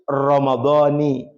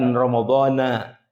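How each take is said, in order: First: The word ends with an 'i' vowel. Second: The word ends with an 'a' vowel. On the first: The month is in the genitive case. The speaker calls it right. "sebenarnya harus Ramadhani" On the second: The month keeps its base ending. The speaker calls it wrong. "bukan bukan Ramadhana"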